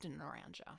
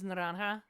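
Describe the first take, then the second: First: The word is said with an American English pronunciation. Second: The word is said with a Spanish pronunciation. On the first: This is how locals in Florida say it. "probably in Florida pronounced naranja" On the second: This is how it is said in Spanish. "do they pronounce it in the Spanish as naranja?"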